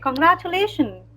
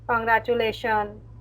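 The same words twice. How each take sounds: First: It is said warmly and cheerfully. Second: It is said flatly, without feeling.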